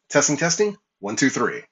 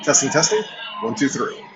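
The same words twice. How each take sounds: First: The voice is heard over a fairly quiet background. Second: The voice is heard over loud crowd chatter. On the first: "we're indoors once again in a semi-quiet room" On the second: "in a simulated crowd noise environment"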